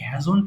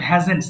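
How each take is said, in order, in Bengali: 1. z আর n-এর মাঝে কোনো স্বরধ্বনি শোনা যায় না। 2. z আর n-এর মাঝে একটা স্পষ্ট স্বরধ্বনি শোনা যায়। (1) "এটাকে ভুল করে অনেকে হ্যাজন্ট বলে" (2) "বাট এটা কিন্তু হ্যাজেন্ট"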